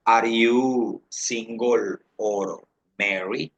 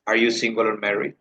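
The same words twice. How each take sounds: First: Very slow, word-by-word question; slow model question. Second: Said in the usual way. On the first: Shown as a demonstration. Teacher asks students about marital status, very slowly word by word. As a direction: stretch each word for learners.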